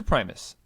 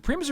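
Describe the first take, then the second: First: Primus with a long "eye", PRY-mus; second pronunciation option. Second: Primus with a short "ih", PRIM-us; first pronunciation option. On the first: Host second guessing the name, offers Primus as PRY-mus. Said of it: "I'm second guessing myself". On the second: Host checking the fighter's name, offers Primus as PRIM-us. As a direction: say Primus to rhyme with "Grimace". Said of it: "Is it Primus or Primus?". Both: Shown as a demonstration.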